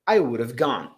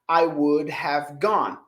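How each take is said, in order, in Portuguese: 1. 'Would have' é falado junto, em uma forma reduzida. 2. Cada palavra de 'would have' é falada por extenso. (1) "O nativo vai falar would have" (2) "Mas o nativo não vai falar assim"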